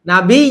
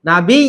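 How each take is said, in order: Both takes have the same delivery.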